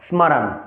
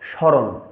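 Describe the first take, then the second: First: Each letter, including the m, is pronounced separately. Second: The m sound is not pronounced separately. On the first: "সংস্কৃতের ক্ষেত্রে উচ্চারণ করতে যাই তাহলে তবে আমরা উচ্চারণ করব স্মরণ" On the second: "বাংলা উচ্চারণ ক্ষেত্রে এই শব্দ গঠনকে আমরা উচ্চারণ করব স্মরণ"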